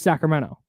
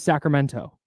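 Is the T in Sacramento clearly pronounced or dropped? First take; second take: dropped; pronounced. First: The T in the middle is dropped. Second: The T in the middle is clearly pronounced. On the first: This is how locals say it. The speaker calls it right. "just Sacramento" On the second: This is the careful form that locals do not use. The speaker calls it wrong. "nobody here, from here says Sacramento"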